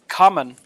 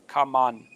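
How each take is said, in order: First: The last syllable has a short uh vowel. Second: The last syllable has an o vowel. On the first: The speaker calls it right. "so it ends in a un, un" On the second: The speaker calls it wrong. "having a kind of an O sound to it"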